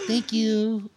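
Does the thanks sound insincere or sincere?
sincere. The thanks sounds warm and sincere.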